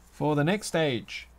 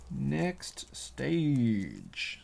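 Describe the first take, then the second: First: Said in the usual way. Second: "Next stage" whispered slowly as a playful echo; slow, dramatic whispered "Next stage". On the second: Shown as a demonstration.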